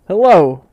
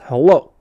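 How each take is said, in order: First: It is said in a light, ordinary voice. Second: It is said in a deep, chesty voice.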